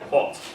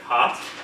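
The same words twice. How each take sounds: First: The vowel is darker and further back, British style. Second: The vowel is an open, forward American 'ah'. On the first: "in British English we say hot" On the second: "In American English we say hot"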